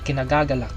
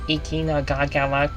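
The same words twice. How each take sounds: First: It is said with a native Filipino accent. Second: It is said with an American-sounding accent. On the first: The speaker calls it right. "how it really is pronounced in Filipino" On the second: The speaker calls it wrong. "he sound more like Americanized"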